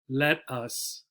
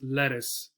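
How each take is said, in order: First: There is a short pause between the two syllables. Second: The two syllables run together without a pause.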